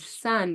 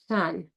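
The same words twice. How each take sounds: First: The s sound is clear and crisp. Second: The s sound is slushy, air escaping sideways. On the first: The speaker calls it right. "instead of sun" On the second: The speaker calls it wrong. "it's got that slushy sound in it, where the air is escaping from the side"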